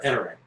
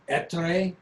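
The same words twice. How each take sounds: First: The name is said with an English accent. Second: The name is said with an Italian accent. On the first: This is how the family and the business say it. "I'm not Italian, so that's not how we say it" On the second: This is how an Italian speaker would say it. "if you have an Italian accent, it would be Ettore"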